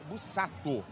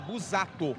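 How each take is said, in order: First: The middle consonant is a hissing S sound. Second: The middle consonant is a buzzing Z sound. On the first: The speaker calls it wrong. "se você for levar ao pé da risca no português, é bus" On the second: The speaker calls it right. "Mas o S tem som de Z. Então é Busato"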